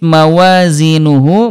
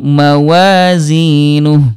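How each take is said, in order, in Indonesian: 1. Kata ini diakhiri dengan vokal penuh. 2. Kata ini diakhiri dengan konsonan yang tidak terdengar. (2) "mematikan hak domir dan juga mengabaikan waw kecil"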